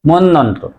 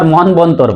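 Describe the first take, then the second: First: The middle has a doubled n sound. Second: The middle has a clear b sound. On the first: The speaker calls it right. "নর উচ্চারণ double হবে" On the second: The speaker calls it wrong. "কেউ আবার মনবন্তর বলে"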